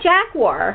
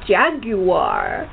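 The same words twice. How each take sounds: First: It is said the American way. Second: It is said the British way.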